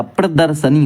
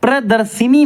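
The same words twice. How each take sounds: First: प्रदर्शनी with a before the n, "pra-dar-sa-ni"; correct pronunciation. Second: प्रदर्शिनी with i before the n, "pra-dar-si-ni"; higher प्रदर्शिनी with "si" in the middle; wrong pronunciation. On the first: Teacher correcting students, "sa-ni" ending on प्रदर्शनी. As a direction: say प्रदर्शनी with "sa" in the middle. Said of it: "प्रदर्शनी होता है". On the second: Teacher showing the mistake, "si-ni" ending on प्रदर्शिनी. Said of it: "प्रदर्शिनी नहीं होता". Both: Shown as a demonstration.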